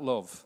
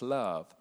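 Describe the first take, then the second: First: It is said in a Sheffield accent. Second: It is said in a Southern English accent. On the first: "We're from Sheffield" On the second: "And we're from the south"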